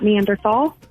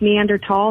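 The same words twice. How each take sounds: First: The last syllable starts with a th sound. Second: The last syllable starts with a plain t sound. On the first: The speaker calls it wrong. "not Neanderthal" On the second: The speaker calls it right. "it's pronounced Neanderthal"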